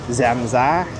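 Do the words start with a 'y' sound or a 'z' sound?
z. Both words start with a z-like sound, northern style. The speaker calls it right. "it's Zamza"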